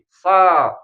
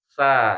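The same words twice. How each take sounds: First: The s is heavy, tongue root raised. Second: The s is light, tongue root kept low. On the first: The speaker calls it wrong. "Kalau kita melafalkan sin pangkal lidahnya naik jadinya gini" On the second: The speaker calls it right. "jadi jangan naik, jadi sa"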